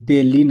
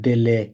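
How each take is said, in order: First: The second syllable sounds like 'li'. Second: The second syllable sounds like 'le'. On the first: The speaker calls it wrong. "ডেলি না" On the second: The speaker calls it right.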